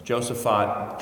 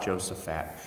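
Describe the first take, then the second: First: Josaphat ending in "fot", with an ah vowel; corrected pronunciation. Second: Josaphat ending in a flat "fat"; childhood pronunciation. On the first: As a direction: say Josaphat as JOE-suh-fot. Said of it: "They pronounce it Saint Josaphat". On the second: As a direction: say Josaphat as JOE-suh-fat. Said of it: "I grew up saying Josaphat". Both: Shown as a demonstration.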